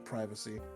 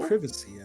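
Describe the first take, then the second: First: The word is said in an American accent. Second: The word is said in a British accent.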